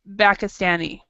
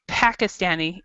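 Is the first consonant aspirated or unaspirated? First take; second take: unaspirated; aspirated. First: The first sound is a soft B-like sound without air. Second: The first sound is a P with a puff of air. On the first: The speaker calls it wrong. "what you said was Pakistani, and the paper did not move" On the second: The speaker calls it right. "if you said it right"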